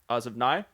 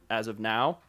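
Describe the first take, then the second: First: It is said in a broad, goofy Irish accent. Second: It is said in a plain, neutral accent. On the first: "but it comes out as" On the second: "he always says"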